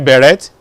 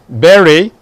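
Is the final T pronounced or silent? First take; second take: pronounced; silent. First: The final T is pronounced. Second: The final T is silent. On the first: The speaker calls it wrong. "You don't say beret" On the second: The speaker calls it right. "The T is silent"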